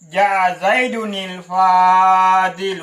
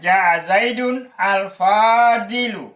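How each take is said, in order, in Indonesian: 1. Zaidun bertemu Fadilu dengan bunyi penyambung 'ni'. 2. Zaidun dan al-Fadilu diucapkan terpisah, tidak tersambung. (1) "Kalau dibaca bersambung" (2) "kalau dibaca terpisah"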